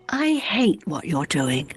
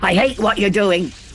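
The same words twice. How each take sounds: First: It sounds worried and unsure. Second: It sounds angry.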